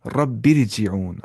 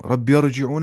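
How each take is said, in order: First: "रब्बिरजिऊन" slowly with a fine R after "bi"; Tajweed light ra in "रब्बिरजिऊन"; light thin R. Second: "रब्बिरजिऊन" with a thick, rounded middle R; the mistaken heavy R in "रब्बिरजिऊन"; wrongly heavy R. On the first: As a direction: recite "रब्बिरजिऊन" as rabbir-ji'oon, slow, R light. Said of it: "हल्की आवाज़ से पढ़ेंगे". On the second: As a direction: say "रब्बिरजिऊन" like rabbi-or-ji'oon. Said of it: "रब्बिरजिऊन नहीं". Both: Shown as a demonstration.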